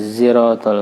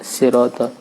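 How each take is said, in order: First: It begins with a z sound. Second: It begins with a plain s sound. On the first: "zai ziratal mustaqim" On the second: "ada juga sin kan bisa siratal"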